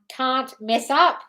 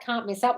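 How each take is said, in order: First: "can't mess up" slowly, word by word, rising on "up"; slow, tentative "can't... mess... up?"; trying out a title. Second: Said in the usual way. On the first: Real, not acted. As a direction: compose "can't mess up" aloud, slowly, with gaps.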